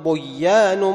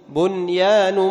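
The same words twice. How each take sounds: First: The n sound is merged into the following y. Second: The n sound is pronounced clearly before the y. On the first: The speaker calls it wrong. "هذه أيضا لا تضغم، لا تقول" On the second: The speaker calls it right. "يسمى إظهارا مطلقا"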